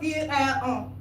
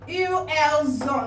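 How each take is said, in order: First: The s sound is not joined onto ont. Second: The s sound is joined onto ont. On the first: The speaker calls it wrong. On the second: The speaker calls it right. "You join the S to this O"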